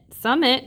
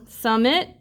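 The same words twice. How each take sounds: First: "summit" said surely, without the questioning rise; confirming it. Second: "Summit" with a questioning rise at the end; trying it out. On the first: Teacher recognizing that it is a real word, confirming it. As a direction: settle on "summit" as found. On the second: Teacher testing whether syllables make a word, trying it out. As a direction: test "Summit" as if asking. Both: Real, not acted.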